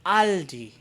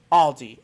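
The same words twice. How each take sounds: First: "Aldi" with open ah, AHL-dee; German pronunciation. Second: "Aldi" with rounded aw and no S, AWL-dee; English pronunciation. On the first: Vlogger offering the alternative to viewers, German pronunciation. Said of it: "with the German pronunciation". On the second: Vlogger correcting viewers on the singular, English pronunciation. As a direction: land firmly on singular "Aldi", English style. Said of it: "it's just". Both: Shown as a demonstration.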